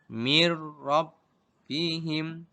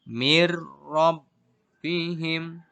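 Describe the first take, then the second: The two takes are said the same way.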